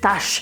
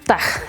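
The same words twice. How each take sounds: First: The final consonant is not a throaty jota. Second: The final consonant is a throaty Spanish jota. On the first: The speaker calls it right. "sino es Taj" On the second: The speaker calls it wrong. "Con J, del Taj, pero no se pronuncia"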